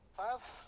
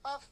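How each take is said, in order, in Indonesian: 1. Bunyi f berlanjut dengan udara yang mengalir. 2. Bunyi f dihentikan mendadak. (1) "nyambung kan? ... karena dia rokhawah" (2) "Jangan faf"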